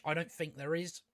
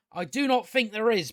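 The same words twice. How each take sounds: First: Said in the usual way. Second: Higher, firmer "do not", each word separate; stress on DO NOT. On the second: Real, not acted. Reviewer doubting any interest in the show, emphatic "do not". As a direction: hit "do not" with full conviction. Emphatic restatement of previous line.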